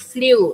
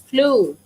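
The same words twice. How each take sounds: First: The vowel does not sound like 'flu'. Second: The vowel sounds exactly like 'flu'. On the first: The speaker calls it wrong. "It's not flew" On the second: The speaker calls it right. "It's flew"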